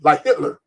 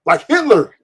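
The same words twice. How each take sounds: First: Said in the usual way. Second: Like Hitler higher and louder, hammered home; podcast host doubling down, louder; emphatic repeat. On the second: Shown as a demonstration. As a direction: punch it the second time. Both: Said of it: "repeated for emphasis".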